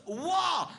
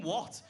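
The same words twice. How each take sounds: First: "what?" shouted high and loud with pure aggression; aggressive shout. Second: Said in the usual way. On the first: Retold or imitated. The comic re-enacting his girlfriend's outraged shout. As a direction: hurl the "what?" like pure rage. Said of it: "Pure aggression, pure emotion". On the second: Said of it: "not even what".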